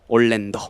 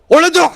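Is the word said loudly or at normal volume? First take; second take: normal; loudly. First: It is said at normal volume. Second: It is shouted loudly.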